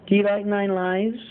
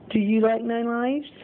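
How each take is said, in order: Both takes have the same delivery.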